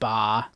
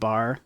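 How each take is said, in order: First: The final R sound is dropped. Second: The final R sound is pronounced. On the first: The speaker calls it right. "it's probably more ta and and ba" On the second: The speaker calls it wrong. "instead of bar"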